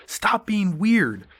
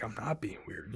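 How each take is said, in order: First: High, loud, drawn-out shout; mock yell. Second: Very soft, small imitated protest; meek retort. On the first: Guy yelling at [name] in jail, retold as a mock yell. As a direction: yell it out slowly like a scolding. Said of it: "looks at him and just yells". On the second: Yelled-at man protesting he isn't weird, meek and very quiet. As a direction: answer under the yell, barely audible.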